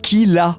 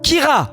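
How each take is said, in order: First: The middle consonant is a light L-like sound. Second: The middle consonant is a French throaty R. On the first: The speaker calls it right. "ça se prononce Kila" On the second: The speaker calls it wrong. "ils te disent Kira"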